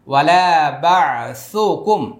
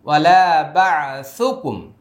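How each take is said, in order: Both takes have the same delivery.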